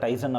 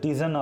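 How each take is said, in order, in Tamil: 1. முதல் உயிரெழுத்து 'eye' போல ஒலிக்கிறது. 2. முதல் உயிரெழுத்து 'ee' போல ஒலிக்கிறது. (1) "நான் வந்து யூஸ்வலாக இதை டைசன் அப்படின்பேன்" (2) "ஆக்சுவலாக ப்ரொனவுன்ஸ் பண்ணுறம்போது வந்து இதை டிசன் அப்படின்னு சொல்லிட்டு ப்ரொனவுன்ஸ் பண்ணுவாங்க"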